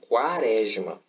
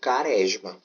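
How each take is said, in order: First: The first syllable has a w sound. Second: The first syllable has no w sound. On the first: The speaker calls it right. "Eu pronuncio as duas letras, eu pronuncio o Q e o U" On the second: The speaker calls it wrong. "em quaresma eu não falo caresma"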